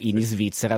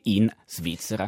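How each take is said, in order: First: An extra i sound comes before Svizzera. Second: No extra i sound comes before Svizzera. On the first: The speaker calls it right. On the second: The speaker calls it wrong.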